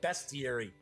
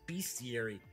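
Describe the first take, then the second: First: The first syllable sounds like 'best'. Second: The first syllable sounds like 'beast'. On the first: "some people pronounce that bestiary" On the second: "I always thought it's bestiary, because you're talking about beasts"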